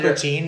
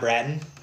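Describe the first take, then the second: First: The name ends with a long 'teen' sound. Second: The name ends with a short 'tun' sound. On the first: The speaker calls it right. "It is pronounced Bertine" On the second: The speaker calls it wrong. "It's not Bratton"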